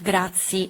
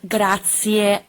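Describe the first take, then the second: First: The word ends in an i vowel sound. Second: The word ends in an e vowel sound. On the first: The speaker calls it wrong. "not grazie" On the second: The speaker calls it right. "Or the word grazie"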